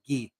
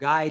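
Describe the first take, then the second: First: It is said with a French pronunciation. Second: It is said like the English word guy. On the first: It is the name after the hockey player. "I just changed the pronunciation to Guy, ... after, yes, Guy Lafleur" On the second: It is the ordinary word he first called the dog. "from Guy"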